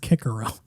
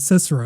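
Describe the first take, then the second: First: The c's are said as hard 'k' sounds. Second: The c's are said as soft 's' sounds. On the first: The speaker calls it right. "it was Kikero" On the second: The speaker calls it wrong. "that dude's name wasn't Cicero"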